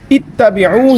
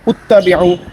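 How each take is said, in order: First: The word begins with an i vowel. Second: The word begins with a u vowel. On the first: The speaker calls it right. "इसका जो हमज़ा है वो मकसूर है, उस पर ज़ेर है" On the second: The speaker calls it wrong. "बाज़ पेश पढ़ देते हैं"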